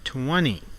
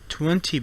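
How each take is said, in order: First: The T sound after N is dropped. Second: The T sound after N is pronounced.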